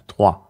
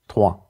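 Both takes have the same delivery.

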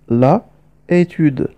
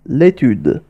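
First: The article's vowel is kept before the noun. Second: The article's vowel is dropped before the noun. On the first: "l'étude في الأصل هي la étude" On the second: "حذفنا حرف أ ووضعنا بدله apostrophe"

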